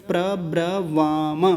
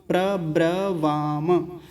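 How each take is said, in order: Both takes have the same delivery.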